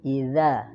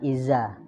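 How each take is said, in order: First: The middle consonant is a 'th' sound. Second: The middle consonant is a plain 'z' sound. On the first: The speaker calls it right. "lidah agak digigit" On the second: The speaker calls it wrong. "jangan iza"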